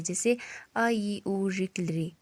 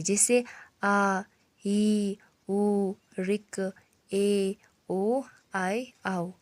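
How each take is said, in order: First: "आ" clipped to a single short beat; short vowels, one beat. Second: "आ" drawn out slowly for a double beat; long vowels, two beats. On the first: Teacher shows a short vowel held for one beat. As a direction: say "आ" quick and brief, one matra long. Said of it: "एक मात्रा का समय लगे". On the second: Teacher shows a long vowel held twice as long. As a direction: stretch "आ" to twice the length, slow. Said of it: "दुगना समय लगे". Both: Shown as a demonstration.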